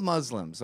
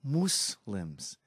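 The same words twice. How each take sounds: First: "Muslims" said the plain American way, with a short "uh" and a z sound; blunt everyday "Muslims"; plain American pronunciation. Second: "Muslims" said quietly with an "oo" vowel and a soft s, mocking the prime minister's careful pronunciation; soft, overcareful "Muslims"; mocking precise pronunciation. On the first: Shown as a demonstration. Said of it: "They're called Muslims". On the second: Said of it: "Who says that?".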